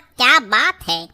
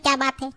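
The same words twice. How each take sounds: First: It sounds like admiring praise. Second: It sounds like a puzzled question.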